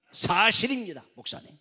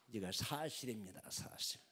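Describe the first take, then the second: First: Loud, high insistence that it is true; emphatic claim. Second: Quiet assurance. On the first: Preacher loudly insisting to the congregation: emphatic. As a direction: declare it loudly to the pastor. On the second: Preacher quietly assuring the congregation it is true: hushed. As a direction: say it softly and firmly. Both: Real, not acted.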